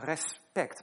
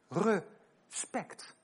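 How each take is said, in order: First: The 're' is reduced and blended into 'spect'. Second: The 're' is full and split off from 'spect'. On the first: The speaker calls it wrong. "wij zeggen respect" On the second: The speaker calls it right. "maar het is eigenlijk respect"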